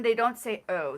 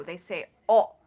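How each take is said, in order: First: O as an American diphthong; they don't say O, gliding oh. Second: O short and pure like orange; they say o, clipped and light; Japanese o. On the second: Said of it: "O as in o, like an orange". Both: Shown as a demonstration.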